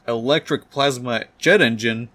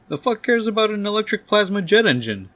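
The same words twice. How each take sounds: First: Reading out a document, questioning; puzzled reading aloud. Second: High, exasperated outburst; angry outburst. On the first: Doc Ock reading the printout, puzzled. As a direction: read it off the page, baffled. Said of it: "He starts reading it and says". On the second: Doc Ock dismissing the printout, angry outburst. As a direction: explode in high-pitched disbelief. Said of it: "Doctor Octopus gets incredibly angry". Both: Acted.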